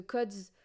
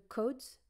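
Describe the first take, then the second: First: "codes" with a short open o, like "cods"; accidental short-o "codes"; mispronounced codes. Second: "codes" with a long closed o; careful long-o "codes"; corrected codes. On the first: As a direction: slip on "codes", saying it with a short vowel. Stumbles on the word, corrects, laughs. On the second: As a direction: fix "codes" with a rounded long o. Second try at the word. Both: Real, not acted.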